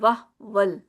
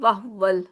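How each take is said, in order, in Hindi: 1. h के बाद स्वर छूट जाता है, होंठ गोल नहीं होते। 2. h के बाद स्वर छूट जाता है, होंठ गोल नहीं होते।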